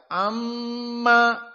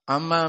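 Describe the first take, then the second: First: It is calm with the nasal hum held briefly. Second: It is rushed with the nasal hum cut short. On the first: The speaker calls it right. "tenang, jangan terburu-buru ... dua harokat" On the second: The speaker calls it wrong. "santri-santri yang membaca cepat, ... salah"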